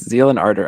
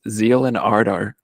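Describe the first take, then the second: First: The name is said plainly, with an English accent. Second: The name is said oddly, with a German-like accent. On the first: The speaker calls it right. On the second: The speaker calls it wrong.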